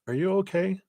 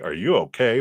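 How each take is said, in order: First: It sounds caring, with compassion and concern. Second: It sounds dismissive, without concern.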